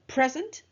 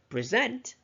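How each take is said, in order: First: The stress is on the first syllable. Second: The stress is on the second syllable. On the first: It is a noun. "as a noun where the first syllable is stressed" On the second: It is a verb. "as a verb where the second syllable is stressed"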